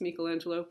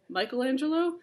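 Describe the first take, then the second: First: The name is said with a non-American pronunciation. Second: The name is said with an American pronunciation. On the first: The speaker calls it right. "It's Michelangelo" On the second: The speaker calls it wrong. "A lot of the American pronunciation is Michelangelo. That's technically not right"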